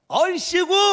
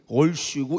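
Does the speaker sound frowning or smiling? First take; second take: smiling; frowning. First: It is said with a bright, smiling tone. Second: It is said with a frowning, sour tone.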